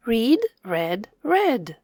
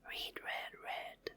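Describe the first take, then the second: First: Said in the usual way. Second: Whispered repeat, no voice. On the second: Shown as a demonstration. Teacher whispering the words back for kids. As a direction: breathe "Read, read, read" softly.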